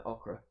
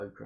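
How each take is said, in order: First: Okra with a short first vowel, "OCK-ra". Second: Okra with a long first vowel, "OH-kra". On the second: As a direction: say okra as "OH-kruh", like "oh". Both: Shown as a demonstration. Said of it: "I don't know how you pronounce that".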